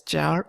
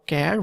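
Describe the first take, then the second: First: "char" with a soft ch, as in charcoal; pronunciation variant. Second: "char" with a hard k, as in character; pronunciation variant. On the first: Coder teaching the short type name, "char" pronounced with ch. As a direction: say "char" starting with a ch sound. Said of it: "you can pronounce it as". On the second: Coder giving the other option, "char" pronounced with k. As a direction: say "char" starting with a k sound. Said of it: "pronounce it as char or char". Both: Shown as a demonstration.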